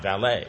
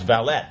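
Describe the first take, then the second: First: It is said the French way. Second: It is said the English way. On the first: The speaker calls it wrong. "not valet" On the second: The speaker calls it right. "because we're speaking English, so it's valet"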